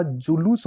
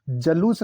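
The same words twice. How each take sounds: First: Said in the usual way. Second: जलूस starting with "ja"; short a in the first syllable of जलूस; mispronounced जुलूस. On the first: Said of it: "जुलूस होता है". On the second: Shown as a demonstration. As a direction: say जलूस as "ja-loos". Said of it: "जलूस नहीं होता".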